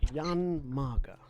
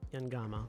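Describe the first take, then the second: First: The M sound comes before the G sound. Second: The G sound comes before the M sound. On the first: The speaker calls it wrong. "I was flipping the G" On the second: The speaker calls it right. "That's it"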